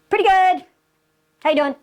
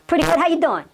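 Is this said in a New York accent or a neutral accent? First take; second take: neutral; New York. First: It is said in a neutral accent. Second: It is said in a put-on New York accent. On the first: "Matching that vocal tonality is crucial" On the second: "You don't fake a New York accent"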